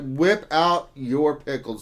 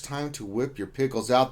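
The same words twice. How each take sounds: First: Slow, louder, put-on proclamation; mock announcer line. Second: Said in the usual way. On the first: Streamer hamming up a viewer's joke for chat, slow and loud. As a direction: declare it grandly to the chat.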